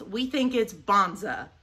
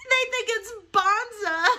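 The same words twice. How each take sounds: First: Said in the usual way. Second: Higher and louder, savoring bonza slowly through a laugh; amused laughing repeat. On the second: Real, not acted. Amused at the label, repeating bonza with a laugh.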